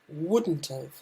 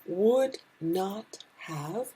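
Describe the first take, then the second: First: The words are squeezed into a short contraction. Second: Each word is said fully and separately. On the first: "becomes wouldn't have" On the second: "Would not have becomes"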